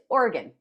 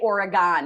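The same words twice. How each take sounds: First: The last syllable is reduced, like 'organ'. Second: The last syllable is said fully, not reduced. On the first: The speaker calls it right. "Organ, like the organs in your body" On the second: The speaker calls it wrong. "don't say Oregon"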